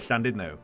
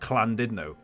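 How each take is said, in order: First: The name is pronounced in a Welsh way. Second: The name is pronounced in an anglicized way. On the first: This is how locals say the name. The speaker calls it right. "I live near Llandudno" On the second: This is how visitors say the name. The speaker calls it wrong. "people come here and go Llandudno"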